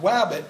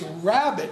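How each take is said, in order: First: The word begins with a W sound. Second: The word begins with an R sound. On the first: The speaker calls it wrong. "not wabbit" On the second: The speaker calls it right. "it's rabbit"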